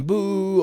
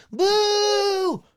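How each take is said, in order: First: Higher-pitched jeer, first crowd voice; background crowd boo. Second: Extremely high falsetto boo; different-voiced boo. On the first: Voice actor showing a first crowd take, jeering. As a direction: boo as an ordinary heckler, pitched up. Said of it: "whole bunch of different people". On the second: Asked for a different crowd take, falsetto jeering. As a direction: squeal the jeer as another crowd member. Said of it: "you to do a different". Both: Shown as a demonstration.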